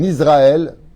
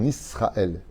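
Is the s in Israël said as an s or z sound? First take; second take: z; s. First: The s is voiced like a z sound. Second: The s is unvoiced like an s sound. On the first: The speaker calls it wrong. "C'est pas en Israël. ... on met pas un Z" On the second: The speaker calls it right. "Non, c'est en Israël. ... on met un S"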